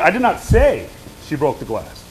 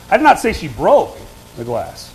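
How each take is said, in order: First: The stress falls on the word say. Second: The stress falls on the word broke. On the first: It was implied rather than said outright. "I didn't say it. I inferred it. I implied it" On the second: She did something else to the glass. "Now what am I saying? She didn't break"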